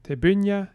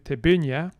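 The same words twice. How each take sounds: First: The stress is on the second syllable. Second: The stress is on the second syllable.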